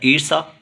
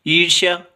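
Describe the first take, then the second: First: ईर्षा with a plain s before the final aa; s variant. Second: ईर्ष्या with sh gliding into yaa; sh-y variant. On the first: Teacher reading students a spelling option, ईर्षा with plain s. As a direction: say ईर्षा as "eer-saa", no y. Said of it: "सही वर्तनी वाला शब्द कौन सा है". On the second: Teacher reading students the correct option, ईर्ष्या with sh-y. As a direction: say ईर्ष्या as "eer-shyaa". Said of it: "ईर्ष्या होगा". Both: Shown as a demonstration.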